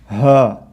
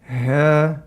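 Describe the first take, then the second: First: The h has far too much breath. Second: The h has too little breath. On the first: "or I can restrict it way too much" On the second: "I can say in a deficient manner"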